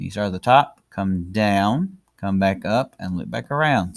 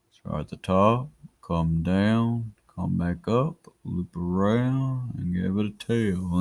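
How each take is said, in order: First: Said in the usual way. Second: Drawn-out words, slow and measured. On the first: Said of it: "Back to normal speed". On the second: Shown as a demonstration. Teacher guiding the pen through each stroke, slow-mo. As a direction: take each step slowly, stretching the vowels. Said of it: "I'll do slow-mo".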